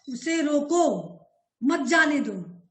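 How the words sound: The pause comes after 'रोको'.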